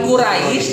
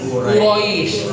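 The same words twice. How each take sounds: First: The r is light, like 'ra'. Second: The r is heavy, like 'ro'. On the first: The speaker calls it wrong. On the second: The speaker calls it right. "tapi Quraisy. Ro ya, bukan ra"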